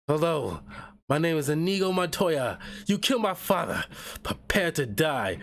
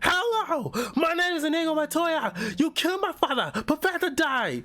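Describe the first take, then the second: First: The line is said with ordinary energy. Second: The line is said with more force and energy.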